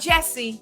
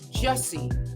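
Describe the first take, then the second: First: The first vowel sounds like 'jess'. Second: The first vowel sounds like 'juss'. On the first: The speaker calls it wrong. "not Jesse" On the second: The speaker calls it right. "It's Jussie"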